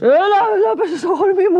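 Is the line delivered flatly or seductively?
seductive. It is said in a sultry, suggestive way.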